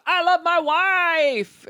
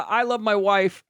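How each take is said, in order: First: Slow, high, syrupy mock; sappy mock reply. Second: Said in the usual way. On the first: Mocking the fiancé's text, slow and sugary. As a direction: stretch it out sickly sweet.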